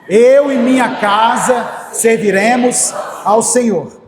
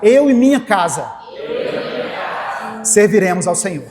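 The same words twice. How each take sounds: First: It is said forcefully, with strong conviction. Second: It is said calmly, without special force.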